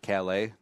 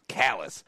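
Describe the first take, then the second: First: The name is said with a French pronunciation. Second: The name is said with an Americanized pronunciation. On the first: "an homage to Calais, you know, the French city" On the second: "us Americans always ruin pronunciations"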